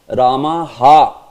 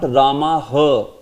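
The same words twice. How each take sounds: First: The final syllable is clipped short. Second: The final syllable is drawn out long. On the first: The speaker calls it right. "it's Ramaha" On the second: The speaker calls it wrong. "it's not Ramaha"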